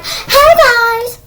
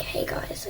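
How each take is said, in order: First: Loud, high, stretched-out greeting; mock big-channel shout; hyped YouTuber. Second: Soft, whispered video hello; hushed, breath-only greeting; whispery greeting. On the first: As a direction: yell it like an over-excited vlogger. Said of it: "so I don't sound like". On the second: Acted. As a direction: whisper it to the viewers with no energy. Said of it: "I don't wanna sound like".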